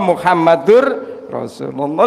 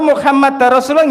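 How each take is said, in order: First: The name ends with the sound -ur. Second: The name ends with the sound -ar. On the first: The speaker calls it right. "sing pakai Rasul Muhammadun" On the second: The speaker calls it wrong. "nggih mboten angsal"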